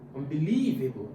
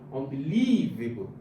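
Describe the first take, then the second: First: The stress is on the third syllable. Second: The same.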